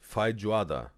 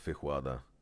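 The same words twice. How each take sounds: First: The j is said like a J sound. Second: The j is said like an R sound. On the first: The speaker calls it right. "when you pronounce the J, is really the J, so not R" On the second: The speaker calls it wrong. "it's not not with the uh"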